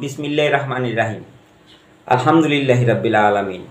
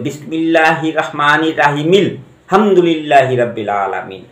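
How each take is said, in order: First: The two phrases are said with a break. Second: The two phrases are joined without a break.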